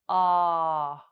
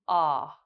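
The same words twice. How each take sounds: First: The vowel is held for about one second. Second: The vowel is said briefly at natural length. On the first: "then one second" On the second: "we'll say it naturally"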